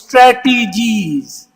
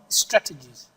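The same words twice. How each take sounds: First: The sounds are drawn out and heavily stressed. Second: The word is said short, quick and plain. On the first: The speaker calls it wrong. "What a lot of people say is strategies. Why are you stressing on T or E or G or A or double R?" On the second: The speaker calls it right. "Simple, straightforward, short, and quickly"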